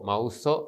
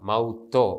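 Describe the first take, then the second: First: The last syllable begins with a soft s sound. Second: The last syllable begins with a hard t sound. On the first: The speaker calls it wrong. "മൗസോ എന്ന് ഉച്ചരിക്കുകയില്ല" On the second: The speaker calls it right. "കഠിനമായിട്ടാണ് ഉച്ചരിക്കുക"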